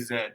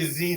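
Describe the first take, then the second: First: It is the non-American 'zed'. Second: It is the American 'zee'.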